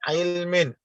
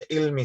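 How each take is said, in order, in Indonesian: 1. Kata itu diakhiri dengan bunyi n yang terdengar. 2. Kata itu diakhiri dengan vokal tanpa n. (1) "harus dimunculkan nun sakinnya" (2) "bukan hanya sekedar baca ilmi saja"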